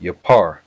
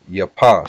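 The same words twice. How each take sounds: First: "Yapar" with an R closing the last syllable; final R. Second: "Yapa" ending on an open ah; no final R. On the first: Teacher showing what makes it beautify, "Yapar" ending in R. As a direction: say "Yapar" and sound the R at the end. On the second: Teacher contrasting word forms, "Yapa" with no final R. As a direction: say "Yapa" without an R at the end. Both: Shown as a demonstration. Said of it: "the R on the end makes it".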